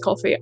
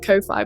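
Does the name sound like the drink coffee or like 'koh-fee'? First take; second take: coffee; koh-fee. First: It sounds exactly like the drink coffee. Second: It is said as 'koh-fee', unlike the drink. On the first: This is the pronunciation someone else gave. "someone's corrected me and said it's pronounced coffee" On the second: This keeps it distinct from the drink. "I am going to continue pronouncing it Ko-Fi"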